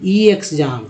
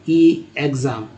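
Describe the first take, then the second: First: ई एग्जाम read as "ee eksjam", sounding the letter ई separately; wrong reading ई एग्जाम, with the letter ई sounded apart. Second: ई एग्जाम read as "ee ekzam", sounding the letter ई separately; wrong reading ई एग्जाम, with the letter ई sounded apart. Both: Shown as a demonstration. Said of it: "ये नहीं कह रहे हैं कि".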